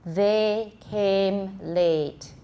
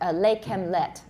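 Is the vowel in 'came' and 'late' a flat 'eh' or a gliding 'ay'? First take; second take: gliding 'ay'; flat 'eh'. First: The words have a gliding 'ay' vowel and a clear 'th'. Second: The words have a flat 'eh' vowel and 'th' sounds like 'l'. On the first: The speaker calls it right. "So they came late instead of" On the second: The speaker calls it wrong. "You say them, lay kem let. ... That's what I usually hear"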